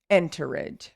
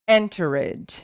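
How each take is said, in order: First: The ending is said as a separate 'ed' syllable. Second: The ending is said as a separate 'ed' syllable.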